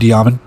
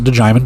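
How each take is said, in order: First: The name sounds like Diamond. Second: The name sounds like DeJimon. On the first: "It could be Diamond" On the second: "I'm going to pronounce it DeJimon"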